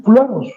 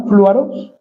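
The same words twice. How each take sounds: First: Fluaros con acento en la u, cerrando en tono bajo; pronunciation demo. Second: Fluaros dicho con "flua" en una sílaba, flwa-ros; pronunciation demo. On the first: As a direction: dilo fluaros, marcando la U tildada. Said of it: "con tilde en la U". (fluaros, acentuando la U y bajando al final) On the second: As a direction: pronuncia fluaros como suena, con la u deslizada. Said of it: "como suena". (fluaros pronunciado claro como suena, flwaros) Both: Shown as a demonstration.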